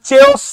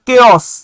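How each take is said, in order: First: The word begins with a 'ch' sound. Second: The word begins with a 'k' sound. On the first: The speaker calls it wrong. "এটা চেওস না" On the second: The speaker calls it right. "এটা উচ্চারণটা হচ্ছে কেওস"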